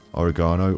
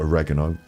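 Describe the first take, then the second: First: It is said with a British pronunciation. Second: It is said with an American pronunciation.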